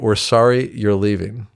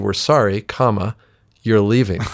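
First: It flows straight through without a break. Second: There is a break after 'sorry'. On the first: The listeners regret that the person is going. "That's a great sentence" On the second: The listeners are glad that the person is going.

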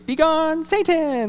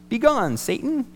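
First: Satan is said with strong emphasis. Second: Satan is said without special emphasis.

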